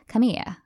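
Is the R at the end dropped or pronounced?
dropped. It has a mid-Atlantic accent without the R.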